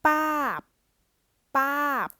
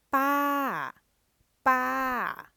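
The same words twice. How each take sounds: First: Pa cut short, very high and loud; dead syllable demo. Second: Pa held long, high and loud, mid tone; live syllable demo. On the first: Teacher contrasting dead syllable, Pa stopped short. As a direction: clip Pa off sharply with a stop. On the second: Teacher contrasting live and dead syllables, pa drawn out. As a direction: stretch pa out long on a level high tone. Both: Shown as a demonstration. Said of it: "give you a comparison between live".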